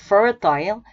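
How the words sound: It is said with a British pronunciation. "the first one is British"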